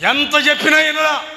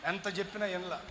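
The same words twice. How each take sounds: First: High loud cry on చెప్పినా; exasperated shout. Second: Quiet falling sigh of చెప్పినా; soft repeat. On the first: Preacher lamenting his uncle, loud exasperated cry. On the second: Preacher echoing himself, soft resigned repeat. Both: Shown as a demonstration.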